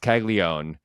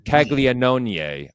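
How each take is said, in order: First: The name is said in a shortened English way. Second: The name is said fully, in the Italian way. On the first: This is how people usually say the name. "it's Caglione" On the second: This is how the name should really be said. "if you want to get specific about the Italian pronunciation"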